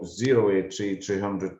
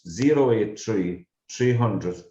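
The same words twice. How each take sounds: First: The number is said at a quick pace. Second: The number is said at a slow pace.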